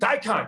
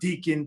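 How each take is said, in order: First: The first vowel sounds like 'dye'. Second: The first vowel sounds like 'dee'. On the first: The speaker calls it right. "when Tyler finally confirmed it" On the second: The speaker calls it wrong. "people were saying uh, Deacon"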